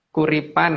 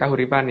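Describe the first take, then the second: First: The name is said with three syllables. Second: The name is said with four syllables. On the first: The speaker calls it right. "Kuripan ada" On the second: The speaker calls it wrong. "bukan Kahuripan ya"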